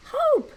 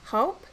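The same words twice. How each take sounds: First: Hope shouted high and loud in triumph; triumphant. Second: Said in the usual way. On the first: Shown as a demonstration. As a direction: cheer the word Hope out. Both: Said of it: "put it all together".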